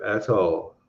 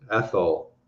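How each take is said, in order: First: Said in the usual way. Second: Athol said slowly and carefully as ATH-ol, the second syllable given a full round o; correcting himself on Athol, giving ATH-ol a clear, fully sounded second syllable; careful pronunciation. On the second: Shown as a demonstration. Greeting a viewer, he carefully says Athol as ATH-ol with a full second syllable. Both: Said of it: "Pronounce things right".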